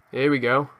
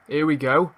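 The two takes are said the same way.

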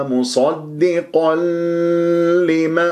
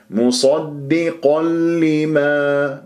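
First: مصدقا لما with the joining l dragged too long; wrongly over-long lām. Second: مصدقا لما slow, n gone into doubled l; merge without nasal. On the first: Teacher warns don't lengthen it, wrongly drawn-out lām. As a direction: overstretch the l between مصدقا and لما. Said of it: "هذا خطأ". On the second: Teacher models the rule, slow merge without nasal. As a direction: join مصدقا لما on a clean double lām. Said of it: "إدغام بغير غنة". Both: Shown as a demonstration.

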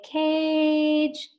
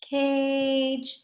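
First: Cage drawn out very slowly; stretched slow. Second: Slow sounded out. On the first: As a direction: say cage slowly so each sound is heard. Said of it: "Let's say cage". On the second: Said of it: "You say it slow". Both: Shown as a demonstration.

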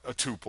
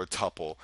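First: "tuple" said TOO-pull; "tuple" rhyming with pupil; long-U tuple. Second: "tuple" said TUP-pull; "tuple" rhyming with supple; short-U tuple. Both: Shown as a demonstration. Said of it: "which way you say it".

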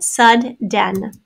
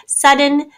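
First: "sudden" split as SUD-DEN; "sudden" with a gap and a full "den"; divided between consonants. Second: Said in the usual way. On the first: Shown as a demonstration. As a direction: sound out both d's in "sudden" as two syllables. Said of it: "divide always right between two consonants".

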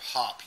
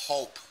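First: Hop with a short clipped vowel; the wrong short vowel in hop. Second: Hope with a full long O; long vowel hope. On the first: Teacher showing the mistake, a short o in hop. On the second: Teacher modelling the long vowel, a full long o in hope. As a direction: stretch the vowel in hope, hoh-pe. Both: Shown as a demonstration. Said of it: "instead of hop".

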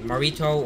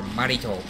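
First: "Marito" with a weak first vowel, muh-REE-toh; trial pronunciation. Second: "Marito" with an open first vowel, mah-REE-toh; alternative pronunciation. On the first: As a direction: say "Marito" starting with a reduced "muh". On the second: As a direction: say "Marito" starting with a full "mah". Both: Shown as a demonstration. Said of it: "how to say his name".

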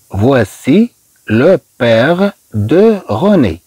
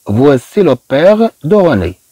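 First: Very slow, a gap after each word; careful, drawn-out French sentence demonstration; word-by-word model. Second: Said in the usual way. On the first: Shown as a demonstration. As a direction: stretch out each word for learners. Teacher repeats sentence word by word.

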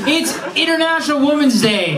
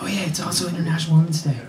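First: Excited shout. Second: Quick, soft throwaway mention; offhand mock aside. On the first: Real, not acted. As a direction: proclaim it with a burst of glee. Host exclaims the holiday. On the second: Host mimicking a colleague's casual aside. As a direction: toss it off quietly as an afterthought.

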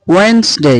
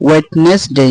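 First: "ওয়েডনেসডে" as wens-dey, silent d; higher, say "ওয়েডনেসডে" in two syllables, wens-day; corrected pronunciation. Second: "ওয়েডনেসডে" as wet-nes-dey; wrong pronunciation. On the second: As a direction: sound the d in "ওয়েডনেসডে", three syllables. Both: Shown as a demonstration. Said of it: "ওয়েডনেসডে না".

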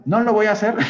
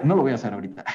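First: High, loud teasing "No lo voy a hacer", pitch jumping up; playful refusal. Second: Said in the usual way. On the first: Pretend. Teacher jokingly refusing to redo the lesson, high teasing. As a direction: refuse it with a cheeky grin before laughing. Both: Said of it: "¿se acuerdan todo lo que les acabo de explicar?".

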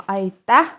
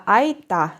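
First: «айта» with stress on the last syllable, rising; айта з наголосом у кінці. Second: «айта» with stress on the first syllable «ай», falling; айта з наголосом на початку. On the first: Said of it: "вони розрізняються за наголосом". («айта» з наголосом на останньому складі) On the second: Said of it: "все ж за правилами на перший склад". («айта» з наголосом на першому складі) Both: Shown as a demonstration.

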